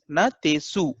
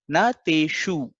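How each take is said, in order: First: The middle consonant is a plain s sound. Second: The middle consonant is an sh sound. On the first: The speaker calls it wrong. "we will read it as Natesu" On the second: The speaker calls it right. "instead of say- saying it as Nateshu"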